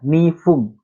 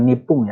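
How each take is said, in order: First: The middle consonant is an F sound. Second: The middle consonant is a P sound. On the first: The speaker calls it right. "Nifung, F" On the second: The speaker calls it wrong. "Bukan nipung ya"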